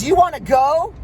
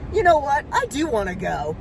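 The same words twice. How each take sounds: First: Imitating a loud, higher-pitched dare; mock road-rage challenge, rising at the end; yelled challenge. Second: Retold defiance, starting high then dropping; defiant comeback. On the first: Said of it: "he's yelling at me". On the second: Answering the driver's challenge in retelling.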